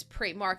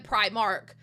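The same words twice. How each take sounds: First: "Primark" with an EE vowel first; Primark as PREE-mark. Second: "Primark" with an EYE vowel first; Primark as PRY-mark. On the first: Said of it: "And I'm like". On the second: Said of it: "then he'll be like". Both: Retold or imitated.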